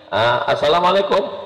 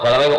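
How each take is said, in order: First: The greeting is said in an exaggerated manner. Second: The greeting is said in a plain, normal manner.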